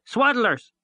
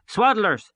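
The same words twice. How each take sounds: First: High, loud jeering scream again; children screaming. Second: High, loud jeering scream; children screaming. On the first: The ragged troop still screaming after them, high and loud. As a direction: shriek the taunt once more, high and loud. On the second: Ragged children screaming taunts after the boys, high and loud. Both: A narrator's reading. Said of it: "the ragged troop screaming after us".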